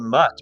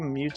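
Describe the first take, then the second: First: The vowel is short, as in 'cut'. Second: The vowel is long, like 'you'. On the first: "I always say mutt" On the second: "maybe mute is right"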